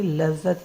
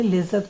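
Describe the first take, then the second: First: "लज्जत" with a short a in the first syllable and a doubled j; correct pronunciation. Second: "लिज्जत" with an i sound in the first syllable, shown as wrong; wrong vowel demo. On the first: Teacher to students: the correct "लज्जत". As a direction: say "लज्जत" with a and a held jj, the right way. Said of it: "लज्जत ही है ये". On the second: Teacher to students: the wrong "लिज्जत". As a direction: say "लिज्जत" with short i as the mistaken form. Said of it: "लिज्जत कोई शब्द होता नहीं है". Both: Shown as a demonstration.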